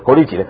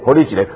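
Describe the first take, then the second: First: It is spoken in Taiwanese Hokkien. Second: The same.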